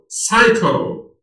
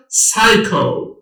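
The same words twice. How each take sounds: First: سایکو drawn out slowly, no P sound; slow careful model of سایکو; slow repeat. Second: Said in the usual way. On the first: Shown as a demonstration. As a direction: spell out سایکو slowly for students.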